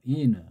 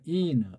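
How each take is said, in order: First: The word is drawn out into two syllables. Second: The same.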